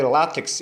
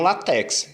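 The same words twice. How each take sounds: First: "látex" as LÁ-tex; "látex" with strong lá, weak tex; correct first-syllable stress. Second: "latex" as la-TÉX; mispronounced "latex", strong open TÉX; mistaken final stress. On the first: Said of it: "a sílaba mais forte é o lá". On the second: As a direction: hit the last syllable of "latex". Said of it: "e não latex". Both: Shown as a demonstration.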